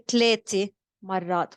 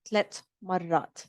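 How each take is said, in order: First: The number ends with an 'a' vowel. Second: The number ends without a final vowel. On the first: The speaker calls it wrong. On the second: The speaker calls it right.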